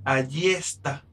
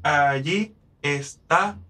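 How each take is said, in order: First: The two meeting vowels are joined into one syllable. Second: The two meeting vowels are said separately. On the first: "yo puedo unir esas 2 vocales" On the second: "en vez de decir allí está"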